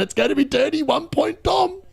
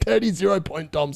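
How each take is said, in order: First: Said in the usual way. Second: Corrects the name through a laugh; laughing correction. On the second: Shown as a demonstration. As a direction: fix the nickname while laughing.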